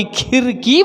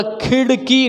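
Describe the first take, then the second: First: Slow "khirki" for खिड़की, simple r; plain र for ड़. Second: खिड़की as "khiṛki", retroflex flap; flapped ड़. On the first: Teacher shows what was not said, खिड़की as "khirki". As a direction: say खिड़की slowly with no flap. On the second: Teacher repeats what was said, खिड़की with flapped ṛ. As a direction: make the ड़ in खिड़की a quick tongue flick. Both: Shown as a demonstration. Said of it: "ना कि खिड़की बोला".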